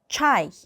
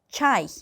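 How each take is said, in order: First: It is said as Russian chai with active jaw. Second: It is said as Russian chai with active jaw.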